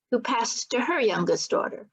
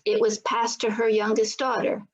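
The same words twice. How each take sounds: First: "her" picked out with a raised pitch; stress on HER. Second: Said in the usual way. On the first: A narrator's reading. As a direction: lean on "her", lifted in pitch to mark the next generation. Next generation, contrast falls on her.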